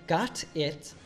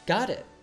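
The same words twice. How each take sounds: First: The T is a crisp, separate T sound. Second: The T is a soft D linking both words. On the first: "instead of saying got it" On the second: "Marty says, got it"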